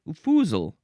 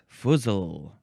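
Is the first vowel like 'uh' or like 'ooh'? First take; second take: ooh; uh. First: The first vowel sounds like 'ooh'. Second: The first vowel sounds like 'uh'. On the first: "Maybe it is an ooh. That one makes more sense" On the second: "Is it uh"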